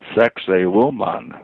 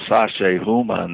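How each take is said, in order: First: The name sounds like the English 'sexy woman'. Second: The name is said in its ordinary form.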